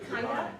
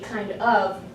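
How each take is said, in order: First: The two words blend into one reduced word. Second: Both words are said fully and separately. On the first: The speaker calls it wrong. "we use kinda" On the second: The speaker calls it right. "it should be kind of"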